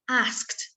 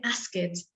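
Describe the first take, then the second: First: It ends in a single unvoiced t sound. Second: It adds an extra vowel before the ending. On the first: The speaker calls it right. "So we say asked" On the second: The speaker calls it wrong. "we don't say asked"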